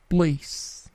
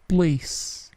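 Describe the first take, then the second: Both takes have the same delivery.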